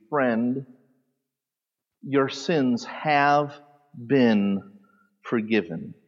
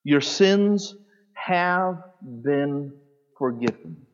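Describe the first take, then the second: First: Slow, soft, tender rendering of the verse; slow, hushed "forgiven" at the end; tender reading. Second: "Your SINS" raised, then a slow hushed "have been forgiven"; stress on sins. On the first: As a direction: let each word land slowly and gently. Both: Shown as a demonstration. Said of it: "the best translation here would be".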